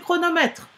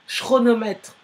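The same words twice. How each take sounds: First: The ch is said as a k sound. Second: The ch is said as an sh sound. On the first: The speaker calls it right. "donc c'est chronomètre" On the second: The speaker calls it wrong. "ça ne se dit pas"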